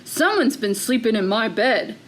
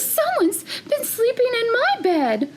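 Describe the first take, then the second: First: It is said in a big, deep voice. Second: It is said in a medium-sized voice. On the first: "in a great big voice" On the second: "in her middle-sized voice"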